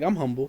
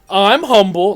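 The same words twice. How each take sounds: First: It is said in a sincere tone. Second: It is said in a condescending tone.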